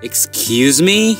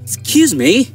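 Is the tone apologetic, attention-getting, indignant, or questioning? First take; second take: questioning; attention-getting. First: It is said in a questioning, rising tone. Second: It is said in a calling, attention-getting tone. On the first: The speaker did not catch what was said. "কি বললেন?" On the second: The speaker wants someone's attention. "এই যে শুনুন"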